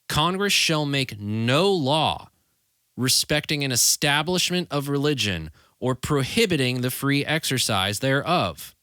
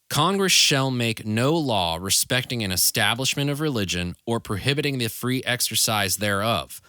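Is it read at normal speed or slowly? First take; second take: slowly; normal speed. First: It is read slowly with added emphasis. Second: It is read at a normal speed.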